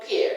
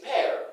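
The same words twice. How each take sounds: First: Pear as "peer"; mispronunciation. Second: Pear as "pair"; correct pronunciation. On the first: Teacher shows what not to say, mispronunciation. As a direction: narrow "pear" to an ee sound. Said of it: "Not pear". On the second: Teacher models the right form, correct pronunciation. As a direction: open "pear" to an eh vowel. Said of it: "it's pear". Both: Shown as a demonstration.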